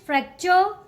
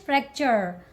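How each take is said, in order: First: It is said with a British accent. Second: It is said with an American accent. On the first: "In British English" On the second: "In American English"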